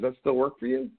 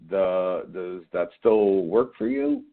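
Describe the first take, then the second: First: It sounds assured, like a rhetorical question. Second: It sounds hesitant and uncertain.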